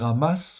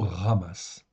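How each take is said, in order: First: The first sound is a Western-style R. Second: The first sound is rasped deep in the throat. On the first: The speaker calls it wrong. "On peut dire ramas, oui, à l'occidental, mais enfin, c'est pas tout à fait juste" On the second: The speaker calls it right. "c'est plutôt ramas"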